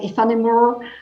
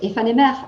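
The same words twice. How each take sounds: First: The word is said with an English pronunciation. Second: The word is said with a French pronunciation. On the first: The speaker calls it wrong. "They pronounce it like in, in English" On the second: The speaker calls it right. "in French"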